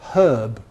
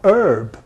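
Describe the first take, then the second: First: It is said the British way, with h. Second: It is said the American way, without h.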